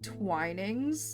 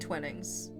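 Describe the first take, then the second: First: The first syllable sounds like 'twine'. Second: The first syllable sounds like 'twin'. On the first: "Would pronounce it Twinings?" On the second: "It just makes me think of like twins"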